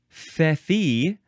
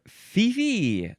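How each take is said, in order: First: The first syllable sounds like 'feh'. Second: The first syllable sounds like 'fee'. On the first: "the first syllable is fe or fi" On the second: "the first syllable is fe or fi"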